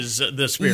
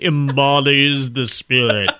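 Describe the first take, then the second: First: It is said in a normal voice. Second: It is said in a Frankenstein monster voice.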